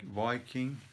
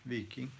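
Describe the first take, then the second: First: "Viking" said with a long eye vowel, VY-king; English pronunciation of Viking. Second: "Viking" said as VEE-king; alternative pronunciation of Viking. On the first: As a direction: say "Viking" as VY-king, rhyming with "striking". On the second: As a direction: say "Viking" with a long ee in the first syllable. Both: Retold or imitated. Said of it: "Isn't it pronounced like".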